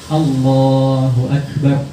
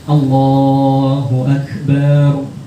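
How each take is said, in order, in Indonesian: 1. Suku kata terakhir akbar dibaca pendek. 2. Suku kata terakhir akbar dibaca panjang. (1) "harus pendek" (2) "bar panjang. Jangan"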